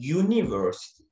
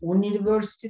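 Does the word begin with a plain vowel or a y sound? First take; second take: y sound; plain vowel. First: The word begins with a y sound. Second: The word begins with a plain vowel sound. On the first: The speaker calls it right. "University diyorsunuz. Oradan Y harfiyle okuduğunuz için" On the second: The speaker calls it wrong. "University demiyorsun"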